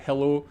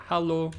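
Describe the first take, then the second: First: Hello with a British e; British English hello, hɛlo. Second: Hello said halo, open a; hello as halo, continental style; hello as European halo. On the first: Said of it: "in Britain, we say it". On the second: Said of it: "but it's more like". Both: Shown as a demonstration.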